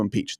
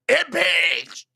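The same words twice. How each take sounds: First: The word is said in a calm, flat voice. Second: The word is shouted loudly with great force. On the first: The speaker calls it wrong. "So you mispronounced it" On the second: The speaker calls it right. "it's all caps and three exclamation points"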